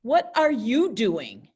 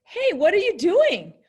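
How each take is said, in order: First: Firm, accusing question; angry. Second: Bright, much higher and louder greeting; happy. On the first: Teacher demoing the angry way to class. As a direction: ask it like you are annoyed. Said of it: "There's two ways to say that". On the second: Teacher demoing a happy greeting to class. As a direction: sound delighted to see them. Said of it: "One of them is very happy". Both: Shown as a demonstration.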